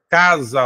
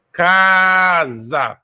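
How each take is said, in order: First: Said in the usual way. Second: "casa" with a hugely drawn-out first "ca"; stress on first syllable. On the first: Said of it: "a sílaba mais forte tá na penúltima". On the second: Shown as a demonstration. Teacher showing the strong syllable, "casa" with "ca" held long. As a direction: stretch the "ca" of "casa" very long, then drop onto "sa". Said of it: "tá no K".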